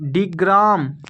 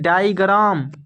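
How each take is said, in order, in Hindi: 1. पहला अक्षर 'dig' जैसा सुनाई देता है। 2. पहला अक्षर 'die' जैसा सुनाई देता है। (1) "डिग्राम नहीं" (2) "नहीं डाइग्राम"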